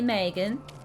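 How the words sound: It is said in an American Valley girl accent. "if I was a Valley girl, I would say Megan"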